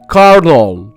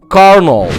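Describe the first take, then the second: First: It is said with two syllables and an 'r' sound. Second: The same.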